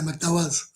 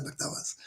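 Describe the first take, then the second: First: Said in the usual way. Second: Muttered repeat. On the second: Shown as a demonstration. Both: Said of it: "That's what I just said".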